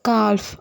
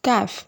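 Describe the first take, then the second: First: The L sound is pronounced in the word. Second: The L sound is silent in the word. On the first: The speaker calls it wrong. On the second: The speaker calls it right.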